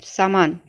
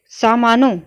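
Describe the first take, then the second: First: सामान said plainly with no nasal ending; correct form said. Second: सामानों said with a nasal ending ों, a bit louder; wrong form said. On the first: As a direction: end सामान cleanly, without ों. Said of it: "सामान होता है". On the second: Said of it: "सामानों नहीं होता है". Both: Shown as a demonstration.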